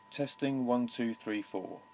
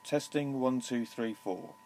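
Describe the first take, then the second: No difference in how they are said.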